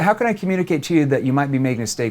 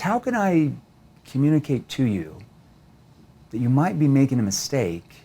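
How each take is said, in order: First: It is spoken quickly, without pauses. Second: It is spoken slowly, with pauses. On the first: The listener has no time to take in the question. The speaker calls it wrong. "Because you say it too fast" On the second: The listener is given time to think about the question. The speaker calls it right. "Notice the verbal pausing there, the verbal pacing"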